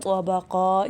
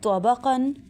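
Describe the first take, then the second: First: The word ends with a long a sound. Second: The word ends with an n sound.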